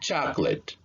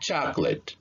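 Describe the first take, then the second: First: The middle vowel is reduced to schwa. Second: The same.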